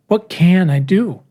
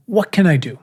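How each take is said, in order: First: "can" ditekan, diucapkan pelan dan putus asa; stress on CAN, desperate. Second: Said in the usual way. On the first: Shown as a demonstration. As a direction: press hard on "can", slowly, a touch desperate. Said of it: "emphasize the can. Same question, a little more desperate". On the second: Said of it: "Let's revisit the question".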